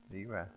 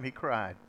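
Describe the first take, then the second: First: Quiet, moved repetition; softly repeated. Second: Said in the usual way. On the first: Shown as a demonstration. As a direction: echo it much softer. Repeated, much softer.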